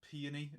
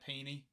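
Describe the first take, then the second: First: The word is said with three syllables. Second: The word is said with two syllables. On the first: "if you put the O in there, it's sort of peony, peony, almost adds another syllable" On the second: "I just want to say P E E N Y"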